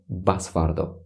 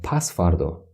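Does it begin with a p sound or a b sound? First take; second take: b sound; p sound. First: It starts with a b sound, northern Tajik. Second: It starts with a p sound, standard form.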